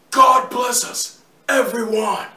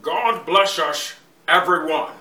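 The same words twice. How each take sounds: First: Slow, loud, drawn-out Reeves take; Keanu Reeves impression. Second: Slow, louder, drawn-out Connery take; Sean Connery impression. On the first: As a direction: lean into the slow Reeves delivery. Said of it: "Mister Reeves". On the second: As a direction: give it the slow Connery rumble. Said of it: "Mister Connery".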